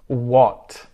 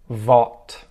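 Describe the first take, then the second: First: The word starts with a W sound. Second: The word starts with a V sound. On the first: The speaker calls it right. "five words that start with the W sound" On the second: The speaker calls it wrong. "mispronounce it with a V"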